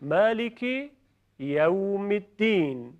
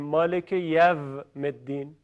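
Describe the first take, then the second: First: Slow, «یوم» as yawm with a w glide; correct recitation. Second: «یوم» said Persian style, yom; the wrong way, «یوم» with a v-ish o; wrong pronunciation. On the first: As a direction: recite «یوم الدین» slowly, lips round. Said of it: "تکرار کنید". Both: Shown as a demonstration.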